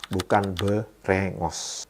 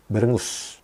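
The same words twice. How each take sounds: First: Berengos said slowly with a round O sound; slow careful berengos with O in the last syllable; wrong vowel. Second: Berengus with a clear U sound in the last syllable; corrected vowel. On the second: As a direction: berengus said with U in place of O. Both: Shown as a demonstration. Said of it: "yang O jadi U".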